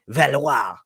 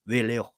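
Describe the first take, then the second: First: The name is said with a French accent. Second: The name is said with an English accent.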